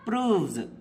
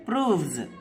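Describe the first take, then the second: First: The word ends with a buzzing z sound. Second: The word ends with a buzzing z sound.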